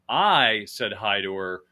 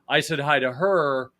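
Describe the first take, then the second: First: The stress is on the word I. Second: The stress is on the word her.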